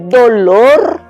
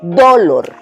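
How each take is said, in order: First: The stress is on the last syllable. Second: The stress is on the first syllable. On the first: The speaker calls it right. "la que suena más fuerte es lor" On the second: The speaker calls it wrong. "Entonces ahí sonaría más fuerte do"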